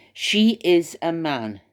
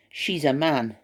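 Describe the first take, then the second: First: "She is a man" spelled out slowly, each word leaned on; slow, deliberate stress on "She" and "is"; slow emphatic insistence. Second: Said in the usual way. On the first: Shown as a demonstration.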